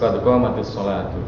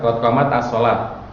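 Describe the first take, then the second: First: A vowel links the t of 'qamat' onward. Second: The t of 'qamat' has no vowel after it. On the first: The speaker calls it right. "kasrahin aja" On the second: The speaker calls it wrong. "Sama-sama sukun kan?"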